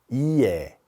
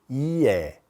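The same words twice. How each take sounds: No difference in how they are said.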